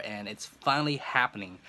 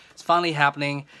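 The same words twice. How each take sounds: First: Said in the usual way. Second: Louder, thrilled burst; excited. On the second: Real, not acted. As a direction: blurt it out with joy. Repeats the news twice.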